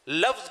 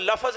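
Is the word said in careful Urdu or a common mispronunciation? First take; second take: careful Urdu; mispronunciation. First: The word is said with careful Urdu pronunciation. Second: The word is said with a common mispronunciation. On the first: The speaker calls it right. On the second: The speaker calls it wrong.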